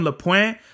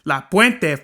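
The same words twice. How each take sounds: First: "La Puente" as luh PWENT, with the final e swallowed; "La Puente" spoken like an outsider asking; anglicized La Puente. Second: "La Puente" as la PWEN-teh, with Spanish vowels, a bit louder; "La Puente" full Spanish, proud and firm. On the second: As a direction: say "La Puente" with your chest out. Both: Shown as a demonstration. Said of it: "say it with your chest out".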